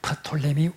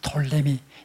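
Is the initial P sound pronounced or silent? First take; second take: pronounced; silent. First: The word starts with an audible P sound. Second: The word starts without a P sound. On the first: This is the original pronunciation. "원래의 발음으로는 프를 묵음으로 할 이유가 없기 때문에 프톨레미" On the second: This is the English pronunciation. "이 P는 영어에서 묵음이 되기 때문에 영어 발음으로는 톨레미"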